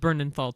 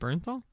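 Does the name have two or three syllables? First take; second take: three; two. First: The name is said with three syllables. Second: The name is said with two syllables. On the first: The speaker calls it wrong. "we've been saying his last name wrong" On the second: The speaker calls it right. "I guess it's John Bernthal"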